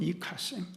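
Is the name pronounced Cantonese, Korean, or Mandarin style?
Cantonese. The name is said with Cantonese pronunciation. "광동어식으로 하면"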